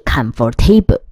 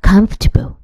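First: The middle 'or' syllable is pronounced fully. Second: The middle 'or' syllable is dropped entirely. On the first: The speaker calls it wrong. "很多同学都会念成comfortable 或是comfortable 都不对" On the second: The speaker calls it right. "实质上它是不发音的"

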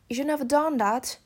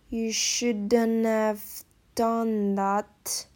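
First: It is spoken at normal conversational speed. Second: It is spoken slowly with the linking sounds clear.

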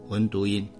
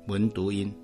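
No difference in how they are said.

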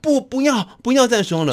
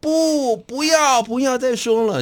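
First: The opening 不 is quick; the ending is drawn out. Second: The opening 不 is drawn out; the ending is short.

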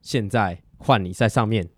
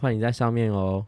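First: It is said in a harsh, commanding tone. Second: It is said in a soft, gentle tone.

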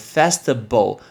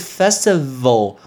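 First: The last syllable starts with a b-like sound. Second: The last syllable starts with a v sound. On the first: The speaker calls it wrong. "你就念成festival，那就是bal 的一个发音错" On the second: The speaker calls it right. "但是是festival。val 怎么念呢？你上面的门牙应该要碰到底下的嘴唇"

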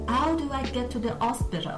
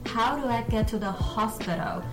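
First: The h sounds are dropped. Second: The h sounds are pronounced.

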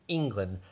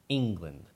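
The two takes are said the same way.

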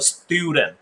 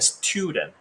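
First: The t after s sounds like an unaspirated d. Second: The t after s sounds like an aspirated t. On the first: The speaker calls it right. "因为ST 要念SD 的音" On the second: The speaker calls it wrong. "你不会念student"

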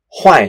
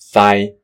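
First: The tone falls from high to low. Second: The tone stays high and level. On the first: "坏的华语是四声，所谓的四声下降调" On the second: "一声是高频调…所以四线腔的发音就是坏"

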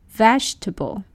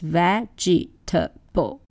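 First: The word is said with two syllables. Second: The word is said with four syllables. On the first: The speaker calls it right. "native speakers would say vegetable. Two syllables" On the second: The speaker calls it wrong. "People tend to pronounce this word with four syllables"

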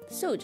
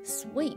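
First: The word sounds like suit. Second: The word sounds like sweet. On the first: The speaker calls it wrong. "suit 是错的" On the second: The speaker calls it right. "我们要说成sweet"

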